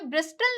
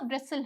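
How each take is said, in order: First: A clear t sound is pronounced after the s. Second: No t sound is pronounced after the s. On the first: The speaker calls it wrong. "यहाँ पे ब्रिस्टल नहीं होता" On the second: The speaker calls it right. "ब्रिसल होता है"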